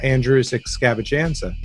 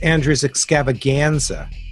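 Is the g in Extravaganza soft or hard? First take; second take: soft; hard. First: The g in Extravaganza is soft. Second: The g in Extravaganza is hard. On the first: It blends in the word scavenger. "I came up with a great name for it" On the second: It is the plain word extravaganza. "you were calling it"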